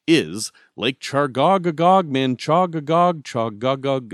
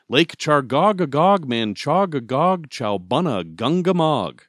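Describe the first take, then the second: First: "Chargogagog Manchogagog Chogagog" said slowly and louder, syllables spaced; careful name pronunciation. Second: "Chargogagog Manchogagog Chowbunna Gungamog" spelled out slowly, syllable by syllable; "Lake Chargogagog Manchogagog" said slowly and louder, each syllable separate; slow careful pronunciation. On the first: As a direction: sound out "Lake Chargogagog" deliberately, slow and steady. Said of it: "I've said it right a couple times". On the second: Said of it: "I will not attempt it". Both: Shown as a demonstration.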